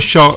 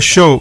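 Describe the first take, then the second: First: The O vowel is open, Neapolitan style. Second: The O vowel is closed, like English. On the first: It takes on a Neapolitan meaning. "invece con la O aperta" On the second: It sounds like the English word show. "se lo dici con la O chiusa assomiglia all'inglese"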